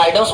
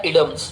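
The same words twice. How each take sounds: First: Idioms said as "EYE-dums", long i first; everyday pronunciation. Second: Idioms said as "ID-ee-ums", short i first; correct pronunciation. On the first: Teacher shows how we usually say it, idioms as "EYE-dums". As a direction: open idioms with an "eye" sound. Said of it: "लेकिन हम idioms बोलते हैं". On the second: Teacher shows students the pure pronunciation, idioms as "ID-ee-ums". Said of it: "इसका शुद्ध pronunciation होता है". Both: Shown as a demonstration.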